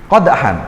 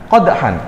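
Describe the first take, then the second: No difference in how they are said.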